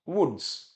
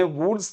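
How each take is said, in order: First: वुड्स with a short 'u'; correct pronunciation. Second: वुड्स said as a one to avoid; mistaken pronunciation. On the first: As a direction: answer वुड्स as 'wuds', falling. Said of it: "क्या बोला?". (वुड्स, छोटे 'उ' वाला सही उच्चारण) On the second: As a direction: show वुड्स with the wrong long 'oo'. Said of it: "हमने वुड्स तो नहीं बोला". (वुड्स का गलत उच्चारण) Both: Shown as a demonstration.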